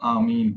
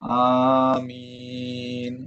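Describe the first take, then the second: First: The word is said short, without lengthening. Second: The word is said with the vowel drawn out. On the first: "ആമീൻ എന്ന് പറയുന്നതിന് പകരം" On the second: "നീട്ടിക്കൊണ്ട് പറയുന്നത് സുന്നത്താണ്"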